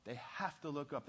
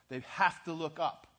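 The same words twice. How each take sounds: First: Said in the usual way. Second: "They have to look up" hit harder and louder, stress on "have"; louder insistent restatement of "They have to look up"; emphatic repeat. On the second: Real, not acted. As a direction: drive "have" home as a preacher.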